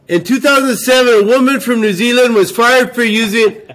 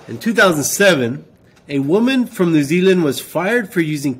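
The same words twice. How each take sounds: First: It is read loudly, as if shouting. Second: It is read at a normal, calm volume.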